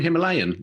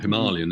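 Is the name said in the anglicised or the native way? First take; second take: anglicised; native. First: The name is said the common anglicised way. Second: The name is said the native way. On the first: The speaker calls it wrong. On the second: The speaker calls it right.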